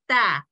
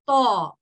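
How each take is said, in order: First: The sound is thin, with unrounded mouth. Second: The sound is thick, with rounded mouth. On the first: The speaker calls it wrong. "instead of saying ta" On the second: The speaker calls it right. "I would say ta"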